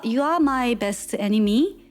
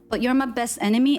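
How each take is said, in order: First: It is said with a Korean-style accent. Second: It is said with a plain English accent.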